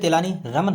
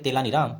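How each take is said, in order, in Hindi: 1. नाम का अंत अंतिम 'n' ध्वनि से होता है। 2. नाम का अंत अंतिम 'n' ध्वनि के बिना होता है। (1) "देखिए तेलानी रामन है" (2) "लेकिन हम पढ़ेंगे तेलानी राम"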